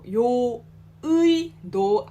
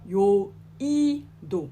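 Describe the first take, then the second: First: The middle vowel is the full 'ui' glide. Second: The middle vowel is a plain 'i'. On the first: The speaker calls it wrong. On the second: The speaker calls it right.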